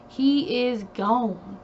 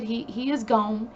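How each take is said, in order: First: Slow, weighty "He is gone"; drawn-out, final "He is gone"; slow emphatic. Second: Said in the usual way. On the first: Real, not acted. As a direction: let each word of "He is gone" land slowly.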